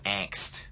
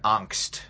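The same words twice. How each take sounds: First: It is said with an English pronunciation. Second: It is said with a German pronunciation. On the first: "we transliterate into English angst" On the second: "the German word Angst"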